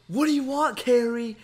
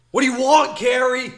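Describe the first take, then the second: First: Louder and higher, irritated Michael; a half-hearted impression of an angry gamer; mock angry yell. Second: Much higher and louder, full-throated yell; hammed-up Michael rage yell at the door; furious shout. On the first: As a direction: snap at Carrie through the door. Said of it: "he was yelling". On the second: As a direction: scream it at Carrie like a raging gamer. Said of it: "He's like".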